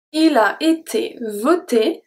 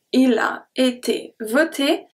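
First: Said in the usual way. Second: Il a été voté said slower, closed o in voté; slow down on voté for the class; slower careful demo. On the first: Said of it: "if we look at voté". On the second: Shown as a demonstration. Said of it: "the O is a closed O".

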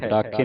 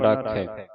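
First: ਰਾਖੇ with a closed final "ay"; wrong single-lanv ending. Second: ਰਾਖੈ with an open final "eh"; double-lanv ending. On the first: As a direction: close the last vowel of ਰਾਖੇ. (ਰਾਖੇ, ਇੱਕ ਲਾਂ ਨਾਲ) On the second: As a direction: open the last vowel of ਰਾਖੈ. (ਰਾਖੈ, ਦੁਲਾਵਾਂ ਨਾਲ) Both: Shown as a demonstration. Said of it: "ਰਾਖੇ ਨਹੀਂ ਪੜ੍ਹਨਾ".

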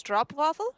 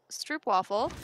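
First: Stroopwafel with the first part like road, unsure rising tune; testing the corrected stroopwafel; corrected pronunciation. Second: Stroopwafel said the American way, stroop rhyming with loop; stroopwafel, the wrong way; mispronounced word. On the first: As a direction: try stroopwafel with an o like road, as a question. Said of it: "It's pronounced like road". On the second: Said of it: "I am mispronouncing". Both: Shown as a demonstration.

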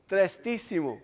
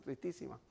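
First: Said in the usual way. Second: Tristísima murmured very softly and drawn down; softly savored word. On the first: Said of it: "esa palabra ni existe". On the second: Shown as a demonstration. Savoring her made-up word, very soft. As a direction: breathe Tristísima almost under the breath. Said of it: "¿Te gusta la palabra esa?".

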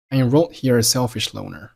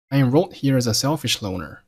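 First: "a selfish" for "as a selfish", z merged into the s; silent z. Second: Said in the usual way. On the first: Shown as a demonstration. Teacher rereading for learners, weak "as" with no z. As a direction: drop the z of "as" before "selfish". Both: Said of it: "as结尾的z不发音".

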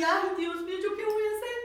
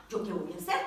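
First: High-pitched imitated crying plea; tearful wail. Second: Said in the usual way. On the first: Lost woman cries out to God in the metro, tearful wail. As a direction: wail it as if in tears. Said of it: "cuando yo estaba llorando".

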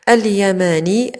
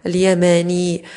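First: اليماني begun with a clear al-; slow, separate اليماني, opening on the glottal a; alif sounded. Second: اليماني begun straight on the lam; drawn-out اليماني with the alif elided; alif dropped. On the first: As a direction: say اليماني alone as al-yamaanii. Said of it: "كذلك تحذف ألف الوصل". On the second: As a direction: say اليماني as l-yamaanii, no opening a. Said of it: "تحذف ألف الوصل مباشرة إلى اللام". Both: Shown as a demonstration.

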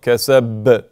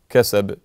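First: كسب with a held, stressed ba like a shadda, slow; doubled ba. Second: كسب with a light, single bounce on the ba; normal qalqala. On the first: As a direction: lean hard on the ba in كسب. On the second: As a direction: let the ba in كسب bounce once. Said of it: "a normal qalqala". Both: Shown as a demonstration.

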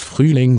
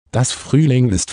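First: A touch of sadness on "Frühling"; sad voice. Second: Said in the usual way. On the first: A narrator's reading. Sad woman echoes the witch's word, mildly sad. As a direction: echo "Frühling" with mild gloom, understated. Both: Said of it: "sagte die Frau mit trauriger Stimme".

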